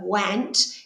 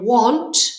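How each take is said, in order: First: It is said sounding out its written letters. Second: It is said with its natural spoken vowel. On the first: This is how the word is spelled. "want is how we're going to spell it" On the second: This is how the word is normally spoken. "want is how we speak it"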